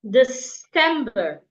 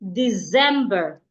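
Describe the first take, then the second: First: The C is sounded like an s. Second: The C is sounded like a z. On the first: The speaker calls it right. "the C there sounds like a S" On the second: The speaker calls it wrong. "pronounce words that have a C like a Z ... That is wrong"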